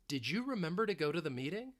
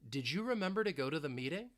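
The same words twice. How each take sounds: Both takes have the same delivery.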